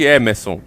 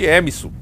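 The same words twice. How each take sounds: First: The name is said with English-like pronunciation. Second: The name is said with local Brazilian pronunciation. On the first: This is how the name is meant to sound. "Não existe Emerson" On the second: This is how people there actually say it. "existe Emerson"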